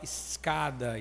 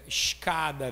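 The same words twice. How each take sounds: First: The s is a plain hissing s. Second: The s sounds like sh, Rio style.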